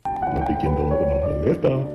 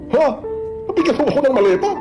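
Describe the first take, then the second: First: It sounds flirty. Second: It sounds surprised, like a natural reaction.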